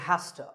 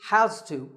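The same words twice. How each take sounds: First: The words blend into a reduced 'hasta'. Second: Both words are said fully and separately. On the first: "which is reduced to" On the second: "we use has to"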